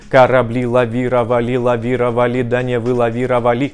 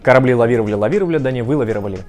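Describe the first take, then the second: First: It is said at a moderate, somewhat faster pace. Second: It is said fast and fluently.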